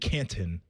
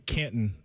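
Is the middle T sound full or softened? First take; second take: full; soft. First: The middle T is fully and clearly released. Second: The middle T is softened, not fully released.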